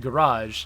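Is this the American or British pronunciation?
American. It is said the American, French-like way. "Americans say garage. That sounds more like the French word"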